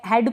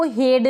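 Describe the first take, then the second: First: First हेड opened to "ae", as in "had"; correct pronunciation. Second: Second हेड with long "ay", like "hade"; wrong pronunciation. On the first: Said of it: "इसको पढ़ेंगे हेड". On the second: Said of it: "को हेड नहीं पढ़ेंगे". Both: Shown as a demonstration.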